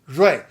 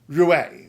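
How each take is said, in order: First: It starts with a sound close to Z. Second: It starts with a plain English R sound. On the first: The speaker calls it right. "It's sort of Z" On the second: The speaker calls it wrong. "you see R U I and you think Rui"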